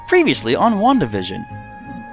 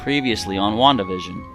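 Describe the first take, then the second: First: It is said in a lively, animated voice. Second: It is said in a dull, lifeless voice.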